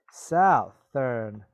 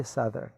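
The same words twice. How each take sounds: First: Southern said with ou as in south; wrong pronunciation shown. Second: Southern said with short u, suh-thern; right pronunciation. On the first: Teacher showing students the wrong way to say it. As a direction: mispronounce Southern like south-ern. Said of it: "But you don't say southern". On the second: Teacher giving students the right way to say it. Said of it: "you say southern". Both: Shown as a demonstration.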